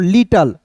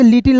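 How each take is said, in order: First: "लिटल" with a weak uh before l; LITTLE ending in "tal", not "til"; correct reading. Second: "लिटिल" with i in both syllables; mispronounced LITTLE ending in "til"; wrong reading. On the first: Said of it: "इसे पढ़ेंगे दोस्तों लिटल". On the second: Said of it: "इसे लिटिल नहीं पढ़िएगा". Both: Shown as a demonstration.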